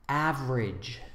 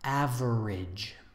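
First: The word is said with two syllables. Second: The word is said with three syllables.

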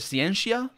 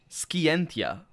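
First: It uses the ecclesiastical Latin pronunciation. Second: It uses the restored classical Latin pronunciation. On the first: "It's either scientia, ... that would be the difference between ecclesiastical Latin and restored Latin" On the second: "or scientia, ... restored Latin, which is what we believe Romans spoke"

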